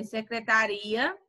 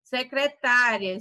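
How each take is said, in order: First: Secretaria, slow, with RI stressed. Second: Secretária, slow, with TÁ stressed. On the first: Teacher contrasts accented words, stressing RI in secretaria. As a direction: slowly lean on RI in secretaria. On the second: Teacher contrasts accented words, stressing TÁ in Secretária. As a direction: slowly hit TÁ in Secretária. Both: Shown as a demonstration. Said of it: "é o acento".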